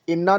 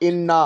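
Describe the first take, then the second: Both takes have the same delivery.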